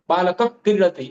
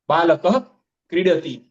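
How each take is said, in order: First: The words run together quickly without a pause. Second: A pause separates the words, with full visarga. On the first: "फटाफट बोलने के चक्कर में" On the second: "हमने पोज लिया बीच में"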